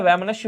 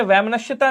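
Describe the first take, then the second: First: वैमनस्य said without the ता, ending on स्य; correct form. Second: वैमनस्यता said in full with the extra ता, as the wrong spelling; wrong form. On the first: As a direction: say वैमनस्य cleanly, no ता at the end. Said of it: "वैमनस्य होता है". (सही रूप वैमनस्य, बिना ता के) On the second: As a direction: say वैमनस्यता ending in ता to show the mistake. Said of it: "वैमनस्यता नहीं होता है". (ग़लत रूप वैमनस्यता, अंत में ता के साथ) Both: Shown as a demonstration.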